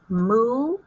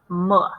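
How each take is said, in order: First: The vowel is a long oo sound. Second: The vowel is a short uh sound. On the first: The speaker calls it right. "Try it with the oo sound" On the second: The speaker calls it wrong. "Try it with the uh sound"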